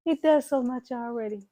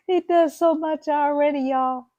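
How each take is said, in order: First: Said in the usual way. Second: High, loud burst of praise for hubby; excited gush. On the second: Real, not acted. Praising her husband to viewers, high loud gush. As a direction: gush about him, voice jumping up.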